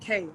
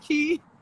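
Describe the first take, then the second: First: The surname rhymes with 'day'. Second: The surname rhymes with 'see'. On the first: The speaker calls it right. "pronounced K" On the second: The speaker calls it wrong. "or Karina Key"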